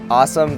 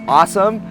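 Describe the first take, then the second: First: It is said in a Hawaiian-style accent. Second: It is said in a standard American accent.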